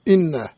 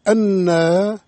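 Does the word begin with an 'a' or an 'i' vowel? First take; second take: i; a. First: The first vowel is 'i' (hamza with kasra). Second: The first vowel is 'a' (hamza with fatha). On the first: It starts a new statement of what is known. The speaker calls it right. "همزة مكسورة" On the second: It wrongly ties the clause to what was said before. The speaker calls it wrong. "لو قرأ قارئ أنا لفسد المعنى"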